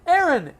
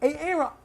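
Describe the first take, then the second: First: The name is said smoothly in the ordinary way. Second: The first sound is split off and said twice. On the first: The speaker calls it right. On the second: The speaker calls it wrong.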